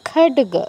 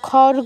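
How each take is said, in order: First: The middle consonant is a stop d sound. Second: The middle consonant is a flapped r-like sound. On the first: The speaker calls it right. "ডয়ের মতো উচ্চারণ করব" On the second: The speaker calls it wrong. "কিন্তু খড়গ বলবো না"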